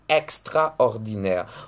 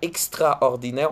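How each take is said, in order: First: The first vowel is an open 'è' sound. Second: The first vowel is not an open 'è' sound. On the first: The speaker calls it right. "on dit" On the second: The speaker calls it wrong. "On ne dit pas"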